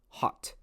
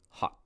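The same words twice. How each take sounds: First: The final t is fully released. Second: The final t is held, not released. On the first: This is overly careful teacher English. "I don't speak that way" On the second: This is how a native speaker talks. "I'm just holding that final sound"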